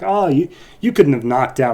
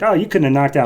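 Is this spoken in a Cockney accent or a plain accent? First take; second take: Cockney; plain. First: It is spoken in a Cockney accent. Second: It is spoken in a plain accent.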